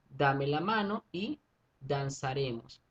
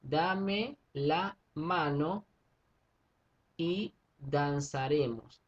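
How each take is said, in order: First: Measured recital of a line; slow poem reading. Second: Very slow syllable count. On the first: Teacher reads a verse to students, slow. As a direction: read the verse slowly, syllable by syllable. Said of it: "Vamos a hacer conteo". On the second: Teacher spells out verse syllables for class, very slow. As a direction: stretch every syllable apart for counting. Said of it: "Fíjense que aquí tenemos". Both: Shown as a demonstration.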